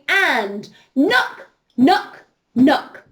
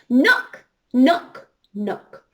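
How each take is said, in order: First: It is said a little bit louder. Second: It is said loudly, but less loudly.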